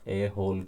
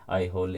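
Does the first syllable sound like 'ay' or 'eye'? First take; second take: ay; eye. First: The first syllable sounds like 'ay'. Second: The first syllable sounds like 'eye'. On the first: "ए होल करके" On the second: "इसको पता नहीं कैसे थोड़ा आई होल या कुछ pronounce करते हैं"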